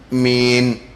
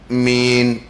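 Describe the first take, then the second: No difference in how they are said.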